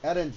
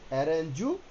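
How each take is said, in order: First: The word ends on the consonant, no vowel. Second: The word ends with an added u vowel. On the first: The speaker calls it right. "অ্যারেঞ্জ হবে" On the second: The speaker calls it wrong. "অ্যারেঞ্জু হবে না"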